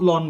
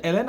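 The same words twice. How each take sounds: First: Ln said as one syllable, lon; habitual lon. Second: Ln spelled out as letters, el-en; correct el-en. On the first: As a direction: ln read as a word, lon. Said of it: "আসলে এটার উচ্চারণটা হচ্ছে ln". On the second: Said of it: "এটার উচ্চারণটা হচ্ছে ln". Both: Shown as a demonstration.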